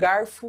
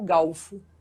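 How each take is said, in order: First: The word has an R sound before the f. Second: The word has an L sound before the f. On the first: "aquele ajuste do barde que virou balde" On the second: "É o mesmo ajuste que ele faz com garfo galfo"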